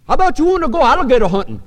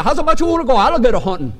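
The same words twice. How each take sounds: First: Put-on Cajun accent. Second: Put-on Cajun accent repeated. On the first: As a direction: mimic a Louisiana Cajun hunter, as if chewing. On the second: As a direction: repeat it in thick Cajun, amused. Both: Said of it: "like, a piece of chicken in his mouth".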